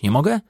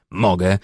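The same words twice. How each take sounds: First: Nie mogę? with rising question tune on mogę. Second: Mogę. said down and final; asserting. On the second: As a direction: answer Mogę. with a firm dropping tune. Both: Acted. Rhetorical question then self-answer.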